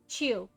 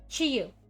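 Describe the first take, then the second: First: One smooth syllable with no break or y-sound. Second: Two parts, the first higher, the second lower. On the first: "without a major pause or Y sound distinction" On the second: "with the higher tone on the first section and lower in the second"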